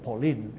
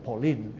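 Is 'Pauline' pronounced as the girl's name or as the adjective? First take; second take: girl's name; girl's name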